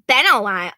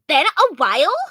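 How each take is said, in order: First: It is said without a Valley Girl voice. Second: It is said in a Valley Girl voice.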